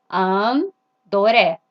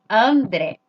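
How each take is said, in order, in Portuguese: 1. É dito com sotaque japonês. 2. É dito com sotaque do português brasileiro. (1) "Como que o japonês vai falar André? Vai falar assim" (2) "Veja aqui"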